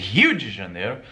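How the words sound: It is said with a Brazilian accent.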